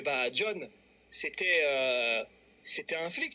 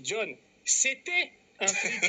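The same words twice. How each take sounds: First: Low, halting confession with a long "euh"; hesitant reveal. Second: High, slow, hammered-out repeat; emphatic repeat. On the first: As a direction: stall before letting the secret out. Annonce hésitante, avant la répétition insistante. (aveu hésitant, grave et traînant) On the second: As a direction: spell it out for someone who didn't hear. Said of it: "T'as pas bien entendu". (répétition insistante, lente et martelée) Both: Retold or imitated.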